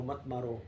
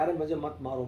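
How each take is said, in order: First: A hushed second plea, as if losing strength; soft repeated plea. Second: Said in the usual way. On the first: Acted. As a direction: repeat it much softer, fading away. Stone begs not to be struck. (धीमी, बुझती हुई विनती)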